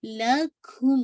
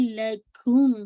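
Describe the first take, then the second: First: لکھم very slow with a falling end; drawn-out tajweed demo. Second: لکھم with a rising end; tajweed demo. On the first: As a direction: stretch out لکھم slowly and let it fall. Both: Shown as a demonstration. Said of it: "ما again آپ کا ٹو کون".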